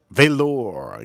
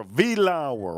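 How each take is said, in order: First: Velour said as "veh-LOR"; settled pronunciation. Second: Velour said as "vee-LAO-er"; trial pronunciation. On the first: Streamer settles on the whisky's name, Velour as "veh-LOR". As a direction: say Velour ending like "lore". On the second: Streamer trying out a whisky's name, Velour as "vee-LAO-er". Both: Real, not acted. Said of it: "yeah, Velour".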